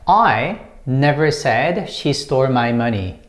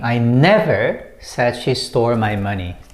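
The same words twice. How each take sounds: First: The stress falls on the word I. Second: The stress falls on the word never. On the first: Someone else said it. "the first one is I, and when you stress this one" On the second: It was never said at all. "when you put emphasis on the second word, never"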